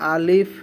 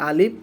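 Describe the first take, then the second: First: The word ends with an f sound. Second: The word ends with a p sound. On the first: The speaker calls it right. "এটা হবে ফ" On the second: The speaker calls it wrong. "শেষে আমরা প পড়ি"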